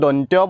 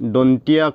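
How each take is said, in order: First: The word sounds like 'dontyo'. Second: The word sounds like 'dontiya'. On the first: The speaker calls it right. "এইটো হ'ল শুদ্ধ দন্ত্য" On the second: The speaker calls it wrong. "দন্তীয়া কয় যেটো ভুল"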